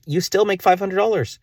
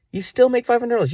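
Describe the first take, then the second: First: Higher excited repeat. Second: Very high, strained squeak of disbelief; even higher incredulous repeat. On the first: Man realising ads still pay, voice jumping high. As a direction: voice jumps high on the dollars. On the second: Man stunned by his own maths, squeaking the sum very high. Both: Real, not acted.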